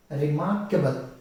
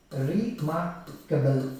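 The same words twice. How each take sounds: First: Said in the usual way. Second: REMARKABLE slowly split as re-mar-ka-ble; drawn-out remarkable, one syllable at a time. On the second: Shown as a demonstration. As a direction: break remarkable into four slow beats. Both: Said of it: "four syllables".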